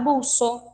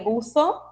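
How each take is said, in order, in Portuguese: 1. O z é pronunciado como um s simples. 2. O z é pronunciado com a língua entre os dentes. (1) "os hispanohablantes dos países americanos vão falar buço" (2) "eles pronunciam esse som interdental, ou seja, eles colocam a língua entre os dentes"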